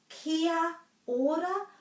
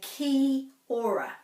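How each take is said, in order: First: Every vowel is said as a separate sound. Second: The a sound after ki is left out. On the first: The speaker calls it right. "it's either kia ora" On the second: The speaker calls it wrong. "many people say ki ora. So they're missing out this"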